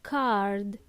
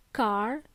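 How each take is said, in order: First: "card" ending on a clear d; lower, drawn-out "card" with the d released; final D pronounced. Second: "car" with no d at the end; final D dropped. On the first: Teacher correcting learners, final D pronounced. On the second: Teacher showing learners the mistake, final D dropped. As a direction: leave "car" open on the r, as the mistaken card. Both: Shown as a demonstration. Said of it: "Please pronounce the last letter".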